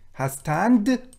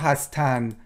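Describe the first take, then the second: First: The word ends with a d sound. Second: The word ends on n, without a d. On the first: This is the full written form. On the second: This is the everyday spoken form.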